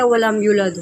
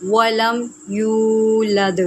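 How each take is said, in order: First: ولم یولد recited carelessly and quickly, without full vowels; recited the wrong way; wrong reading. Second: ولم یولد slow, with every vowel drawn out; slow proper tajweed; correct recitation. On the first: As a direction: rush ولم یولد as a learner would. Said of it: "کیسے غلط پڑھا جاتا ہے". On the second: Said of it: "اس کو پڑھیں گے ولم یولد". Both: Shown as a demonstration.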